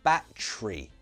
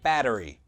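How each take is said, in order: First: Said with a British accent, middle syllable squeezed. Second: Said with an American accent, all syllables full. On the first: "in British English, we say battery" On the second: "American English"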